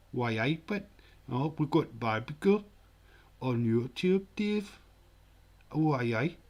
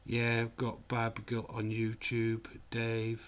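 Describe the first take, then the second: First: Lilting, hammed-up Geordie impression; bad Geordie accent. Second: Said in the usual way. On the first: Shown as a demonstration. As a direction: put on a terrible Geordie accent. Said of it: "terrible Buddy Geordie accent". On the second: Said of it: "Should do that in his accent".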